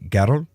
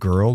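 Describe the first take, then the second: First: It is said in a harsh Scottish accent. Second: It is said in the speaker's plain accent.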